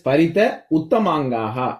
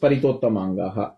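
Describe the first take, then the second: First: The two words are said separately. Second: The two words are merged into one. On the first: "ஸ்பரித உத்தமாங்காக அப்படிங்கறத"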